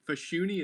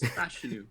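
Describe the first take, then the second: First: The name ends with an ee sound. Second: The name ends with an oo sound. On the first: The speaker calls it wrong. "you said Fashuni" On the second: The speaker calls it right. "It's Fashanu"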